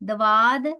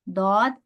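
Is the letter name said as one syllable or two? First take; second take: two syllables; one syllable. First: The name is said with an added wa syllable. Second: The name is said as one closed syllable. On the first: The speaker calls it wrong. "नहीं पढ़ सकते, वाव नहीं दाखिल करना" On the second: The speaker calls it right. "इसको ऐसे, दौद"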